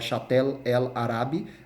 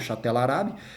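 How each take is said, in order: First: The article is said as a separate syllable. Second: The article runs together with the next word.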